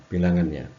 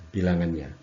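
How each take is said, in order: The two takes are said the same way.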